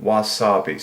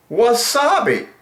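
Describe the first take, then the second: First: Said in the usual way. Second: Much higher, drawn-out word; lilting high wasabi; high sing-song word. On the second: Real, not acted. Savouring the word.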